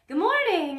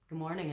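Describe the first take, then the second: First: The voice is lifted and pitched higher. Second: The voice is pitched low and heavy. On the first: The speaker calls it right. "You're lifting the voice" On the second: The speaker calls it wrong. "Be aware of if you're talking down here"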